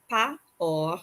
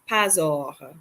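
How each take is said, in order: First: The two words are separate; the S is silent. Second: The words are linked with the S sounded. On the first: The speaker calls it wrong. "Instead of pas or" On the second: The speaker calls it right. "we're going to pronounce them as one word"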